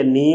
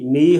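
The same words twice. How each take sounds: First: نی with a nasal ee; nasalized vowel. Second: Said in the usual way. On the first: Shown as a demonstration. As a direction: let نی leak into the nose. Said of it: "غنے کی آواز کا ہونا". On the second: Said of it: "غنے کی آواز کا ہونا اور نہ ہونا".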